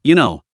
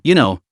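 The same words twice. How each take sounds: First: Teasing inflection. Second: "you know" dropped low with a playful teasing curl; teasing inflection. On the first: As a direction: tease him gently on the last words. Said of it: "ended the sentence with a soul-stirring, teasing inflection". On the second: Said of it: "especially that teasing inflection at the end". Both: Acted.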